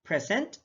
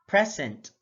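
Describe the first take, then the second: First: "present" with rising tune on the second syllable; first of a pair, "present" left rising; contrasted stress, rising. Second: "present" with a falling end; second of a pair, "present" closed with a fall; contrasted stress, falling. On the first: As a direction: lift the end of "present". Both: Shown as a demonstration. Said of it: "stress is the verbal emphasis used".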